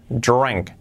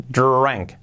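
No difference in how they are said.

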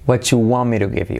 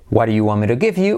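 First: The words 'do you' blur into 'chu'. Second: The words 'do you' are said in full.

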